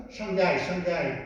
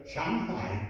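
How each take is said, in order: First: Shanghai run together quickly, without Chinese tones; French mispronunciation. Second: Shanghai in two toned syllables, softer, with a clear h in hai; correct tonal pronunciation. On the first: Retold or imitated. Lecturer mimics the French getting it wrong, toneless quick Shanghai. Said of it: "tous les Français prononcent mal". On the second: Shown as a demonstration. Lecturer corrects the French, Shanghai in two toned syllables. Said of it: "Shang, c'est au-dessus".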